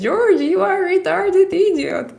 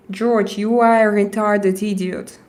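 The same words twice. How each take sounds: First: Much higher and louder, a put-on squeaky insult; mock high voice. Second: Said in the usual way. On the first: Shown as a demonstration. Streamer repeats the chat insult in a silly high voice. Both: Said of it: "I'm going to say like this".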